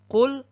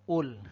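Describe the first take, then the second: First: It is said in Standard Arabic with a q. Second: It is said in Egyptian Arabic with a glottal stop.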